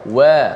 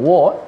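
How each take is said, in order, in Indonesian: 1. Bunyi w itu ringan dan tipis. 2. Bunyi w itu berat dan tebal. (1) "Wa itu disebut dalam keadaan nipis" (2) "jangan wa"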